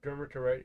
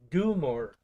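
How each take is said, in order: First: It sounds like 'der-ma-tor-ite', without 'mortier'. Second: It sounds like 'du-mor-tier-ite', with 'mortier'. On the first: The speaker calls it wrong. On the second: The speaker calls it right.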